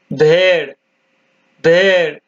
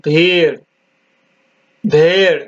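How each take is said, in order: Both takes have the same delivery.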